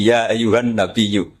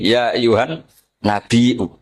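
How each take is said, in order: First: "nabiyyu" recited slowly with gliding y; slow recitation, smooth ya in "nabiyyu"; without hamzah. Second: "nabiyyu" as nabi-'u, glottal catch before u; recite, pause, then break "nabiyyu" with a hamzah; original hamzah. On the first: Teacher quotes Ali's Quraisy reading, no hamzah in nabiyyu. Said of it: "Sehingga dia anti hamzah juga". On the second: Teacher quotes Bani Tamim, glottal hamzah in nabiyyu. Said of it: "Sukanya yang asli". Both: Shown as a demonstration.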